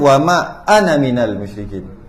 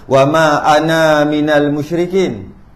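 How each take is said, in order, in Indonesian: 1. Vokal akhir pada ana dibaca pendek. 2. Vokal akhir pada ana dibaca panjang. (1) "tapi baca baca dia" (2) "Ada yang baca"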